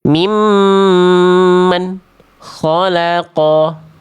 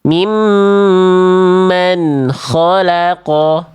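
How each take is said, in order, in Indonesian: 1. Bunyinya terputus setelah nun. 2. Nun mengalir ke bunyi berikutnya. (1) "bunyiannya jadi putus" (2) "Jangan putus"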